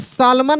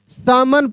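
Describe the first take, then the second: First: The L sound is pronounced in the word. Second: The L sound is left out of the word. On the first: The speaker calls it wrong. "यहाँ पे सालमन नहीं पढ़ेंगे" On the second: The speaker calls it right. "सैमन पढ़ेंगे"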